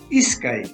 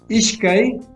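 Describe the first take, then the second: First: The middle consonant is an 's' sound. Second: The middle consonant is a 'sh' sound. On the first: This is the Quechua II form of 'two'. "en quechua dos" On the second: This is the Quechua I form of 'two'. "en quechua uno"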